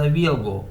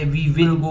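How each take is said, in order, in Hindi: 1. 'will' शब्द 'we'll' में छोटा हो जाता है। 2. 'will' शब्द पूरा बोला जाता है।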